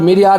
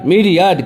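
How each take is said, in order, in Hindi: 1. Stress किसी बाद वाले अक्षर पर पड़ता है। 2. स्ट्रेस पहले अक्षर पर पड़ता है। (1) "ज्यादातर आदमी मीरियाड मीरियाड बोलता है" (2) "एम पे आपको जोर देना होगा"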